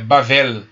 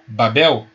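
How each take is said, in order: First: The middle consonant is a V sound. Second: The middle consonant is a B sound. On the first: This is the original Hebrew reading. "o segundo bet não tem daguesh. Tem o som de V" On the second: This is the form used in the translated Bible. "Como está na nossa Bíblia"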